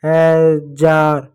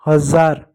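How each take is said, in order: First: हजार drawn out slowly with a j; children's j mistake. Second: हजार with ज as a buzzing z; correct z pronunciation. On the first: Teacher showing what children write, slow j version. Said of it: "बच्चे लिखते हैं". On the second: Teacher giving children the corrected word, with z. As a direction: say हजार as "hazaar". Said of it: "ज होता". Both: Shown as a demonstration.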